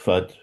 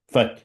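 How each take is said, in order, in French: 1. La syllabe est prononcée doucement, sans force. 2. La syllabe est prononcée fort, avec force. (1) "Faut pas dire fat" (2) "avec autorité, avec force, avec vigueur"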